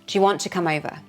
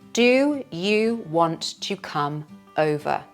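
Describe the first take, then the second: First: It is said with the words linked smoothly. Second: It is said slowly and clearly.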